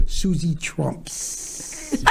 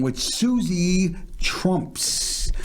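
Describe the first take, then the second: First: "Susie Trumps" very slow, ending on a rise; "Susie Trumps" drawn out with a questioning lift; careful name pronunciation. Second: "Susie Trumps" said slowly, every syllable drawn out; "Susie Trumps" spelled out carefully and very slowly; careful name pronunciation. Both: Shown as a demonstration. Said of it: "gotta say it correctly".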